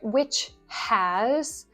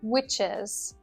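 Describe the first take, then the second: First: The word has is said in full. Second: The word has is clipped and linked.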